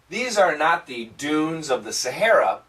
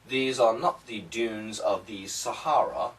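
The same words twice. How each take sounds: First: It is read in an American accent. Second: It is read in a British accent. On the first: "Let me do American style" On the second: "let me read it British style"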